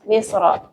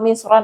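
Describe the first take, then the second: First: The word ends in a bare a vowel. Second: The word ends in an added n sound. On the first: It names the country of Egypt. "mabni dengan fathah" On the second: It means any city or place. "bisa berubah-ubah harokatnya"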